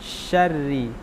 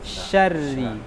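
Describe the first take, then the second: No difference in how they are said.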